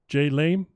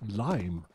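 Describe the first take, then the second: First: The name is said with two syllables. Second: The name is said with one syllable. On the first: The speaker calls it wrong. "is not the correct way of saying his name" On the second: The speaker calls it right. "his correct pronunciation is just lime"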